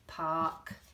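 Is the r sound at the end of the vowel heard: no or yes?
no. The vowel is open with no r sound. "the way we say ah"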